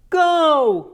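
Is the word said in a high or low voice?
high. The word is said in a high voice. "higher voices might be go"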